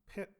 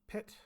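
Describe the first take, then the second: First: The T is said without a puff of air. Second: The T is said with a puff of air. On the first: "a non-aspirated T" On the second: "an aspirated T"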